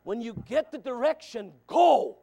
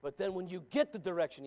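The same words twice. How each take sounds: First: Louder, higher, punch the final go; preaching it again in full force; loud restart. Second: Said in the usual way. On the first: Shown as a demonstration. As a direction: hurl the go out at them. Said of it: "restarts after I'm winded". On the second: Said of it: "repeats it after winded".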